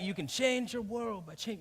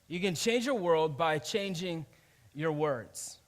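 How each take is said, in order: First: It is said like an overexcited hype man. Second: It is said in a plain, sincere way.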